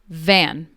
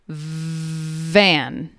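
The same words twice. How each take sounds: First: The word is said at a normal speed. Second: The word is drawn out very slowly. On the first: "I'm going to say each word normally first" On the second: "then I will repeat each word very slowly"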